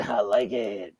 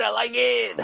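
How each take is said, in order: First: Dropped low with a mock shout; low growly voice. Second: Raised, goofy, high-pitched; high silly voice. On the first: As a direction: growl it out deep. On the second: Pretend. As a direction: chirp it up high and playful. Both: Says it twice, differently.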